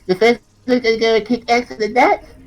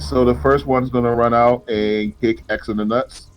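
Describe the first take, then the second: First: It is said in a Cartman impression. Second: It is said in his normal voice.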